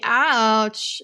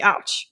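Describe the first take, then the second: First: It is said catty with many pitch swings. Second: It is said plainly with a flat tone.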